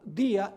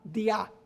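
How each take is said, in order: First: The stress is on the first syllable. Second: The stress is on the second syllable. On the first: The speaker calls it wrong. "En vez de tener el acento dia en la I" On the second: The speaker calls it right. "tiene el acento en la A"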